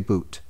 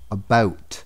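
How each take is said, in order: First: The vowel sounds like 'oot', as in boot. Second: The vowel sounds like 'owt', as in out. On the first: This is the stereotyped imitation of the accent. The speaker calls it wrong. "We don't say boot" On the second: This is how the speaker really says it. The speaker calls it right. "We say about"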